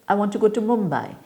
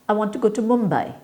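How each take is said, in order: No difference in how they are said.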